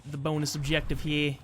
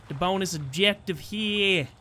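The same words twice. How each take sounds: First: Bad attempt at a Brooklyn accent. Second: Slow, drawn-out bad Brooklyn accent. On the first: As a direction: try a Brooklyn accent, half-committed. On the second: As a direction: push the failed Brooklyn accent harder, higher and slower. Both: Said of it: "I can't do a Brooklyn accent".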